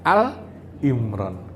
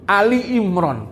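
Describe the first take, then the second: First: The first word is said as one syllable, 'Al'. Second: The first word is said as two syllables, 'Ali'. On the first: The speaker calls it right. "padahal Al Imron" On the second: The speaker calls it wrong. "Loh, kok Ali?"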